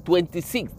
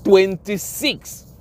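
First: Quiet echo. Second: Twenty-six drawn out slowly, every syllable leaned on; Twenty-six stretched slow for emphasis; emphatic repeat. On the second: Stressing how long the officer served, slowly and emphatically. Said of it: "for twenty-six years". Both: Shown as a demonstration.

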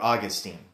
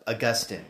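First: Put-on Augustine said as AW-gus-teen; first-syllable stress. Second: Augustine said as uh-GUS-tin; second-syllable stress. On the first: Podcaster offering the other name form, Augustine said AW-gus-teen. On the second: Podcaster introducing the theologian by name, Augustine said uh-GUS-tin. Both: Shown as a demonstration. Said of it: "depending on how you want to pronounce it".

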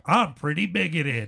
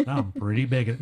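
First: Higher, hammed-up soundbite delivery; mock station drop, pitched up; radio drop. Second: Said in the usual way. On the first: Shown as a demonstration. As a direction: punch it out like a jingle tag. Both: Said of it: "I don't want you using that as a drop".

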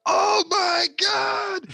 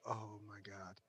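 First: Very high, loud, drawn-out wail; shocked yell. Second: Very soft, low "oh my God"; sinking realisation, barely voiced; hushed dismay. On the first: Retold or imitated. Co-worker sees the tea in the fish, shocked yell. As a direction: cry it out in exaggerated disbelief. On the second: Worker discovers the ruined fish, hushed dismay.

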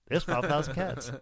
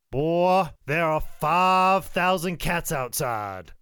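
First: Understated punchline, breaking into laughter; Bobby Eaton. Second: Loud, slow, stretched-out exaggeration; Ricky Morton. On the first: Retold or imitated. Bobby stepping outside to see the cats, conceding. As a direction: concede it, barely holding the laugh. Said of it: "And Bobby's like". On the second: Ricky walking in with a tall tale, astounded. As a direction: announce a wild tall tale, drawing out FIVE. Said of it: "he's like".

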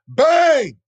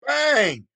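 First: Shouted bang, high and loud; imitated gunshot, shouted high and loud. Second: Tossed-off echo of the gunshot; lighter gunshot bang. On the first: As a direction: yell it like a gun firing. Gun goes off. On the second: Retold or imitated. Gunshot repeated.

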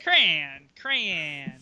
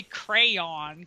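First: Crayon squashed into one syllable, cran; one-syllable pronunciation. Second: Crayon drawn out as two clear syllables; two-syllable pronunciation. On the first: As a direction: say crayon like cran, pitch dropping. Shows own one-syllable pronunciation. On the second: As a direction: say crayon slowly, cray then on. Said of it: "You would say crayon". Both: Shown as a demonstration.

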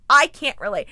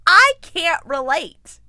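First: Said in the usual way. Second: Slow, loud deadpan 'I can't relate'; emphatic. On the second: Shown as a demonstration. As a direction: lean hard into 'I can't relate'.

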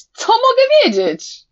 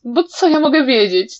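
First: Much higher, loud shouted cry. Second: Said in the usual way. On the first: A narrator's reading. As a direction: hurl the question out. (wykrzyczane pytanie) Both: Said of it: "ostatnie zdanie wykrzyknął".

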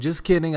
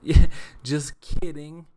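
First: Said in the usual way. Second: Laughs through just kidding, louder and slower; laughing. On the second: Shown as a demonstration. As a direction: chuckle it out, owning the joke.

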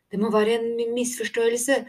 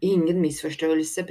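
First: High, anxious voice catching on a word; nervous stammer. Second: Firm, curt contradiction; gruff denial. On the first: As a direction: stumble over the word in alarm. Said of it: "stammet Tico". (engstelig, høy stamming) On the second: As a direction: shut the idea down firmly. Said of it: "brynet mannen". (bryskt og bestemt) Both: A narrator's reading.

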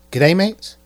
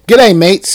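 First: Said in the usual way. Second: Loud, cheery Australian g'day; mock Aussie greeting. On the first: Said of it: "someone actually wrote this?". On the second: Shown as a demonstration. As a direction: boom it out like an Aussie host. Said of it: "I sound like a server from Outback Steakhouse".

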